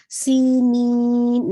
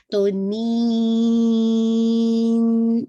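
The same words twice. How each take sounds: First: سی نین nasalized too early, slow and louder; wrong nasal. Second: نین stretched very long, nasal only on the final نون; nasal at the end. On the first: Teacher showing students the mistake in سی نین. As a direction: sing سی نین with the nasal sound coming in too soon. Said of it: "نہیں، یہ تو nasal sound پہلے سے آ رہا ہے". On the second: Teacher modelling the correct nasal ending in نین. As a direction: hold نین long and let the nasal nون come in at the end. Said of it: "اس طرح سے نون کا ساؤنڈ اینڈ میں". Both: Shown as a demonstration.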